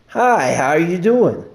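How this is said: It is said warmly, with a smile.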